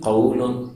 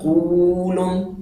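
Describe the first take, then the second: First: The vowel is short and softly glided. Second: The vowel is drawn out and lengthened. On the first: "نرم سا پڑھا گیا" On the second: "وہ ذرا کھینچ کے پڑھا جا رہا ہے"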